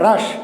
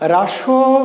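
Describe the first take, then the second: First: The syllable stops sharply on a consonant. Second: The syllable ends with an added vowel. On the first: The speaker calls it right. "থেমে গেলাম, আটকে গেল" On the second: The speaker calls it wrong. "না"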